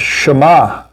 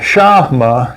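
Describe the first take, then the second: First: The stress is on the second syllable. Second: The stress is on the first syllable. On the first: The speaker calls it right. "it's Shema. ... emphasis is always the second syllable" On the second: The speaker calls it wrong. "it's not uh"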